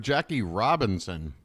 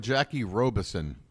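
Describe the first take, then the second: First: "Robinson" with a clear N before "son"; contrasted name. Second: "Robison" with no N before "son"; contrasted name. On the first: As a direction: sound the middle N in "Robinson". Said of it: "Never heard of Jackie Robison". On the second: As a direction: say "Robison" as ROH-bih-son, dropping the middle N. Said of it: "I've heard of Jackie Robinson". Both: Real, not acted.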